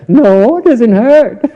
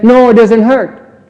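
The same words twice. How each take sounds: First: Higher and louder, laughing through 'it doesn't hurt'; laughing mock denial. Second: Higher, slow, pretend-brave 'No, it doesn't hurt'; mock denial. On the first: Teacher imitating the student's fake denial while laughing. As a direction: play the fibbing student, giggling. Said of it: "Doesn't hurt, huh?". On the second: Teacher imitating a hit student's denial, slow and higher. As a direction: play the student insisting it doesn't hurt. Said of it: "and then he says".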